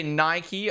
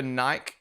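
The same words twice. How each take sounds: First: Nike said as NY-kee; two-syllable Nike. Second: Nike said as NYKE, no final ee; one-syllable Nike. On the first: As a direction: add an ee to the end of Nike. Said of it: "people say Nike over Nike". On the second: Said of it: "piss me off". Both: Shown as a demonstration.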